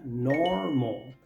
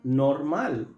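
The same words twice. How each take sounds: First: The word is pronounced as in English. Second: The word is pronounced as in Spanish. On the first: The speaker calls it right. "en inglés esta palabra se pronuncia normal" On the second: The speaker calls it wrong. "porque se escribe igual en español"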